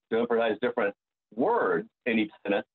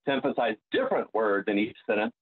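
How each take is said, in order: First: WORDS set off by a pause, pitch swooping; pause, then hit "words" emphatically; stress on WORDS. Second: DIFFERENT punched with a pitch lift; stress on DIFFERENT. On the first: Singer showing how to practise text, stressing WORDS. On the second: Singer showing how to practise text, stressing DIFFERENT. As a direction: lean hard on the word "different". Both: Shown as a demonstration.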